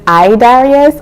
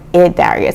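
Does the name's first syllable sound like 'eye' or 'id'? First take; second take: eye; id. First: The first syllable sounds like the word eye. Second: The first syllable sounds like id in squid. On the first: "Is it I as in I?" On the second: "Or id as in squid?"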